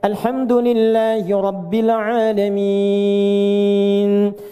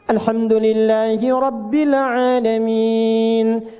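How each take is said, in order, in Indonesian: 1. Vokal terakhir ditahan sekitar tiga detik. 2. Vokal terakhir ditahan sekitar dua detik. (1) "bisa kita baca tiga detik ujungnya" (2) "Anda baca empat"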